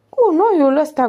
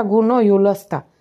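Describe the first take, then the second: First: Higher, louder offended repeat; indignant echo. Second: Slow, drawn-out mocking repeat; slow sarcastic echo. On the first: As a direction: throw the insult back at him. Toto repeats the insult indignantly. (repetă jignirea indignat, mai sus și mai tare) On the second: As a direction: savour the insult slowly. Toto repeats it slower. (repetă rar și batjocoritor) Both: A narrator's reading.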